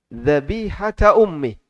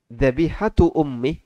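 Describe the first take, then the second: First: The first word ends in an a vowel. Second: The first word ends in a u vowel. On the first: The fetus must be slaughtered like its mother. "di situ mansub" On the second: The fetus needs no separate slaughter. "Kalau dibaca dengan kalimat dzabihatul janin"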